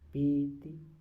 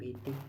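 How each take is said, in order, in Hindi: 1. दोनों स्वर लंबे बोले गए हैं। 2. दोनों स्वर छोटे बोले गए हैं। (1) "ती बड़ा बोलकर देखता हूँ, भी भी बड़ा बोलता हूँ" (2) "भी छोटी ती भी छोटी"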